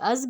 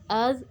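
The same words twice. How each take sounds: First: The final consonant is a hissing z sound. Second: The final consonant is a soft th sound. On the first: The speaker calls it wrong. "नरमी के बगैर ... सीटी आ जाएगी जो कि गलत है" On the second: The speaker calls it right. "नरमी से भी अदा होगा और बगैर सीटी के भी"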